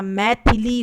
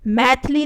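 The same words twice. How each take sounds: First: मैथिली as slow mai-thi-li; correct form. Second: मैथिली said as maith-li; wrong form. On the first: Teacher restoring the vowel, मैथिली slowly in three syllables. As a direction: sound the middle i of मैथिली. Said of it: "मैथिली होता है". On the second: Teacher showing the missing vowel, मैथिली in two syllables. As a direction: drop the middle i of मैथिली. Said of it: "मैथिली नहीं होता". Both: Shown as a demonstration.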